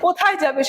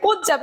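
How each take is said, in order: First: The first word is said in full. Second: The first word is clipped short. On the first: "কেউ বলছে কোথায় যাবে" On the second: "তাড়াহুড়ায় ... এইভাবে কিন্তু উচ্চারণ করছে"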